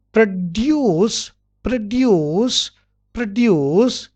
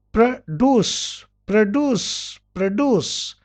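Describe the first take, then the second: First: PRODUCE as "pro-DYOOS"; y glide before oo in PRODUCE; British pronunciation. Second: PRODUCE as "pro-DOOS"; plain doo in PRODUCE, no glide; American pronunciation. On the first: Teacher drilling British produce, "pro-dyoos". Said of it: "in British". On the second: Teacher drilling American produce, "pro-doos". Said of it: "in American". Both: Shown as a demonstration.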